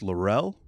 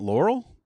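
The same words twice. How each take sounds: First: The stress is on the second syllable. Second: The stress is on the first syllable. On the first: The speaker calls it right. "my name rhymes with uh, foretell" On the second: The speaker calls it wrong. "It's not Laurel?"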